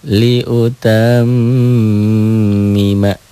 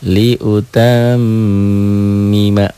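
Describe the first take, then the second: The two takes are said the same way.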